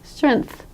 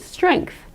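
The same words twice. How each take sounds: First: It goes straight from the NG to TH. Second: A K sound comes between the NG and TH. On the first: "So they say strength" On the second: "native English speakers in America add a sort of a K sound here"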